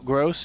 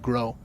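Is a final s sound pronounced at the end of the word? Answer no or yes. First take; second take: yes; no. First: The word ends with an audible s sound. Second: The word ends on a vowel, no s sound. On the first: The speaker calls it wrong. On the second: The speaker calls it right.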